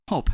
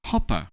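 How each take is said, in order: First: Said in the usual way. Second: "hopper" as hope with an extra "uh" after the p; added final vowel. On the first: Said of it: "we just say hope". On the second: Shown as a demonstration. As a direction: release the p of "hopper" into a full "puh" syllable. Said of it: "We don't say hopper".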